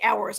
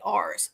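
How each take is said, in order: First: Ours is said not rhyming with Mars. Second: Ours is said rhyming with Mars, regional accent.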